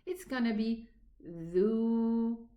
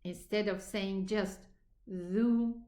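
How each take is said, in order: First: The vowel is held out longer. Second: The vowel is held briefly. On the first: "we are going to elongate it"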